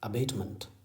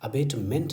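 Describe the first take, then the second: First: The final syllable has a weak, reduced vowel. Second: The final syllable has a full 'ment' vowel. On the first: The speaker calls it right. "बल्कि अबेटमेंट" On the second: The speaker calls it wrong. "अबेटमेंट नहीं है"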